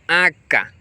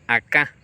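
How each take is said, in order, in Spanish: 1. El acento está en la primera sílaba. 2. El acento está en la última sílaba. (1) "La tercera palabra es aca" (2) "en el guaraní paraguayo y en el guarayú la variación de acento es acá"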